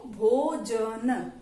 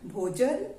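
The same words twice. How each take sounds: First: भोजन stretched very slowly, syllable by syllable; teacher sounding out भोजन slowly. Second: Said in the usual way. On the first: Shown as a demonstration. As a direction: draw out भोजन slowly for a child to copy. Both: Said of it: "एक साथ बोल के देखो".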